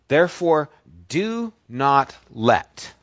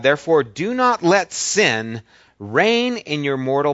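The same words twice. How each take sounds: First: "Therefore, do not let" slowed right down, each word weighted; slow stress on do not let. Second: Said in the usual way. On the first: Shown as a demonstration. Preacher repeats the verse to the congregation, slow heavy stress. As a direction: lean hard on "do not let", slow and deliberate. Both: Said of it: "Those words are very important".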